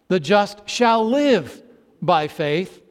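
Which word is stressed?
shall live. The stress is on shall live.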